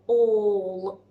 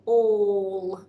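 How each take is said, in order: First: The vowel is an 'or' sound, like awe. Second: The same.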